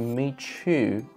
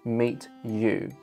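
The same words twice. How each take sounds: First: The t and y blend into one sound. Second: The t and y stay as separate sounds. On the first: "assimilation kicks in. So the net result is" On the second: "instead of saying"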